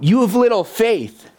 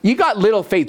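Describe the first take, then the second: First: It sounds gentle and compassionate. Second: It sounds scolding and reproachful.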